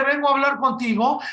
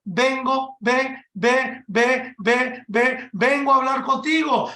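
First: Said in the usual way. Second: Stammering on the first sound of vengo; stuttering. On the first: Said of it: "en vez de decirle". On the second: Retold or imitated. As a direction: trip over "ve, ve" before "vengo" gets out. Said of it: "Él estaba tartamudeando".

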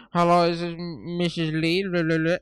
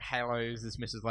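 First: Bad Italian accent. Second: Said in the usual way. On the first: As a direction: overdo a cheap Italian accent on the phone. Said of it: "I'll do a really shit accent". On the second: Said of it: "started saying".

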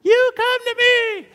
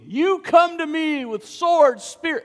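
First: Cracking high squeak on "You come to me"; a teen voice breaking upward on "You"; squeaky voice. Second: Bold reply. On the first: Teenage David answering the giant, voice squeaking. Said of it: "Maybe a little squeak in there". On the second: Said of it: "David replied to the Philistine". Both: Acted.

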